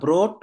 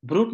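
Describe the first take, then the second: First: The vowel sounds like 'oh'. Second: The vowel sounds like 'oo'. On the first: The speaker calls it right. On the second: The speaker calls it wrong.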